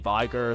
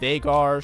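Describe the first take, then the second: First: The first syllable sounds like 'vig'. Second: The first syllable sounds like 'vay'. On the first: The speaker calls it wrong. "I say this wrong" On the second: The speaker calls it right. "I think that's the right way to say it"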